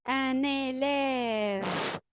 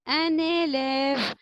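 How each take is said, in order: First: Very slow, every sound stretched out; drawn-out model word; slow teaching voice. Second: Said in the usual way. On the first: Shown as a demonstration. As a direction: spell it out by ear for the class. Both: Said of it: "teacher models a word to repeat".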